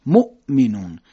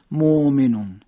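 First: مؤمنون with a clean stop on the hamza; cut-off hamza. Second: مؤمنون with the vowel stretched, no stop; drawn-out hamza. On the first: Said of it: "صدا باید قطع بشه". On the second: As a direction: demonstrate the wrong long مؤمنون. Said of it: "صدا رو نمیکشیم". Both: Shown as a demonstration.

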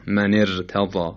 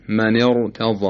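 First: من ارتضی with a thin, light ر; light r, mistaken. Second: من ارتضی with a thick, heavy ر. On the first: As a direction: slowly say ارتضی with the r flattened thin after the i. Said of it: "و نه من ارتضی". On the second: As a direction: say ارتضی with the r fully velarized. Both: Shown as a demonstration.

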